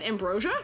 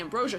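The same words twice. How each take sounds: First: Every syllable of the name is over-enunciated. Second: The name is said in a relaxed, ordinary way. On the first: "they really pr- overpronounce it" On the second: "I pronounce your name like the salad"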